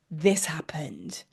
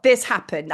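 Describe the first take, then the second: First: Slow, breathy whisper for the reveal; dramatic whisper. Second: Said in the usual way. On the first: Acted. Teller to viewers, revealing the photo in a slow whisper. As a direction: whisper it slowly like a secret.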